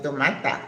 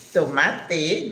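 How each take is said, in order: First: "tomata" with a lazy English a at the end; wrong English-style ending. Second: "Tomate" with a clear Spanish final e, slightly rising; Spanish pronunciation. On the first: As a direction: say "tomata" as a careless English version. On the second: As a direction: teach "Tomate" as to-MA-te ending in a crisp e. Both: Shown as a demonstration. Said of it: "not tomata".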